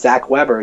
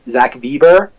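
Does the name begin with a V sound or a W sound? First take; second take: W sound; V sound. First: The name starts with an English W sound. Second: The name starts with a German V sound. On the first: "my name's Zach Weber" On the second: "Like in the German"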